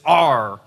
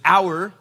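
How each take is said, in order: First: It is said in a Texan, pirate-like accent. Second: It is said in a northern accent. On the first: "For those of you that are from Texas, it's our, right? Almost like you're a pirate" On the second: "Some of you maybe that are from up north, maybe you say it properly, which is our"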